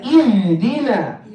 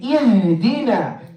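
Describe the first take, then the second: The two takes are said the same way.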